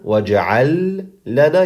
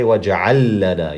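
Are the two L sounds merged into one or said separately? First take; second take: separate; merged. First: The L sounds are said as separate sounds. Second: The L sounds merge into one doubled sound. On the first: The speaker calls it wrong. "instead of saying waj'al lana" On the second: The speaker calls it right. "combine the two lams together to make it easier"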